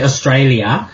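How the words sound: The word is said with a non-Australian pronunciation. This is how outsiders say it. The speaker calls it wrong. "We don't say Australia. Who says that?"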